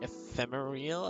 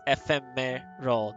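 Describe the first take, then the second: First: The ending sounds like '-real', as in ethereal. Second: The ending is a short plain '-ral' sound. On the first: The speaker calls it wrong. "I would try to pronounce ephemeral with the ethereal vibe" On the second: The speaker calls it right. "but there's no E. It's ephemeral"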